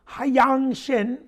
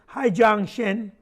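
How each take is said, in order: First: The name is said with a Korean accent. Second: The name is said with an English accent. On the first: The speaker calls it right. "I did say that with a little accent" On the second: The speaker calls it wrong.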